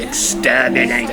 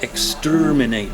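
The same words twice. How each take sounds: First: It is said in a harsh, grating Dalek voice. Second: It is said in an ordinary speaking voice. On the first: The speaker calls it right. "it has to be exterminate. It sounds really horrible" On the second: The speaker calls it wrong. "doesn't really do it"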